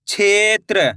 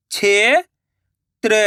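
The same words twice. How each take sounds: First: Said in the usual way. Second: क्षेत्र drawn out slowly, sound by sound; slow syllable split. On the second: Shown as a demonstration. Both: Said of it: "मैं किस तरीके से".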